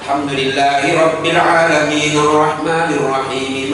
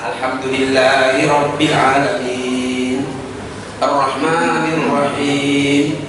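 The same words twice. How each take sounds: First: The two verses run together without a pause. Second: There is a pause between the two verses.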